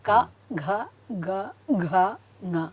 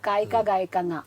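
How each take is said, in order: First: Each consonant is spoken clearly as its own syllable. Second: The consonants are blurred together into running syllables. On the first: The speaker calls it right. "ക ഘ ഗ ഘ ങ എന്ന് തന്നെ പറഞ്ഞ് പഠിപ്പിച്ചാൽ അവർക്കത് തെറ്റില്ല" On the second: The speaker calls it wrong. "നമ്മൾ കേൾക്കാറുണ്ട് ഈ വ്യഞ്ജനാക്ഷരങ്ങൾ ... എന്ന് പറഞ്ഞ് കേൾക്കാറുണ്ട്. പക്ഷെ അതല്ല"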